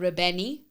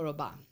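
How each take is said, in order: First: The name ends with an added 'ee' vowel. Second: The name ends on the 'n' consonant. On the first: The speaker calls it wrong. "or Rabani. That's always my best" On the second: The speaker calls it right. "It's actually Paco Rabanne"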